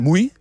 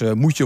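First: The words are merged into one short Twents syllable. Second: Both words are said in full, standard Dutch.

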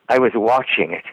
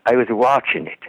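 First: The word watching ends with a full g sound. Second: The word watching ends without the g sound. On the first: "It won't be" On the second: "in Irish accents, a lot of the times, they'll leave off the G on the ING. ... It'll be"

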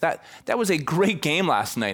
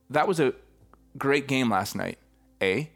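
First: It sounds like a confident exclamation. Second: It sounds like a tentative question.

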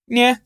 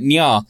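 First: The yeah sounds vague and half-hearted. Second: The yeah sounds firm and agreeing. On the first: The speaker is not really agreeing. "last week it was more of a yeah" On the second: The speaker is agreeing. "you leaned more towards the yes then"

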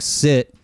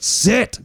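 First: The word is said plainly and calmly. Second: The word is said loudly and forcefully. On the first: The dog may ignore the command. The speaker calls it wrong. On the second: The dog obeys the command. The speaker calls it right.

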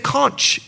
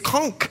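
First: The word ends with a ch sound. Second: The word ends with a k sound. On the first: The speaker calls it wrong. "you don't say conch" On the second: The speaker calls it right. "It's conch"

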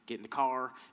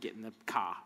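First: It is said in a Southern US accent. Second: It is said in a Boston accent. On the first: The speaker is from the South. "in the South, you say" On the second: The speaker is from Boston. "and the Boston"

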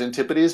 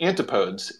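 First: It is said in the standard way. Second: It is said the way it is spelled. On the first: The speaker calls it right. "like I do know as antipodes" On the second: The speaker calls it wrong. "which looks like antipodes"

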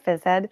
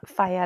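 First: The first syllable sounds like 'fizz' with z. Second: The first syllable sounds like 'fie' without z. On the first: "What do you call it? Phys-Ed" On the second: "we just call it Phi-Ed"

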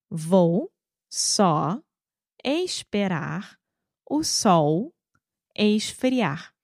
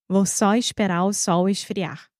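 First: The sentence is spoken at a slow pace. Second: The sentence is spoken at a fast pace. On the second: "De novo, rápido"

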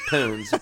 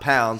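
First: The vowel is an 'oo' sound, like 'poons'. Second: The vowel is an 'ow' sound, like 'pounds'. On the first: The speaker calls it right. "it's poons" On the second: The speaker calls it wrong. "not pounds. I don't know why people say it like that"

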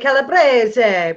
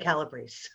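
First: The name is said with an Italian pronunciation. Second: The name is said with an American pronunciation. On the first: "If we were in Italy, we would say Calabrese" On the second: "but we're in America. So apparently, according to my husband's family anyway, we say Calabrese"

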